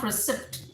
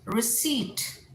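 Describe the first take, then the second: First: Receipt as ri-SIPT with the p heard; mispronunciation. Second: Receipt as ri-SEET, no p; correct pronunciation. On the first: Teacher shows what not to say, receipt as ri-SIPT. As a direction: sound the p in receipt, short i. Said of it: "not receipt". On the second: Teacher gives the English word, receipt as ri-SEET. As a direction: say receipt with a long EE and silent p. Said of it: "English में receipt". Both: Shown as a demonstration.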